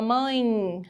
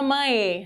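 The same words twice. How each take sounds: First: "mãe" ending in a faint I glide; weak I sound. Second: "mãe" with the final E said as a full E; wrong full E. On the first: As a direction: say "mãe" naturally, final E as a weak I. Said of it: "Ficou bem fraquinho, tem som de I". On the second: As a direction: say "mãe" as written, E not turned into I. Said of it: "Você não fala mãe". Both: Shown as a demonstration.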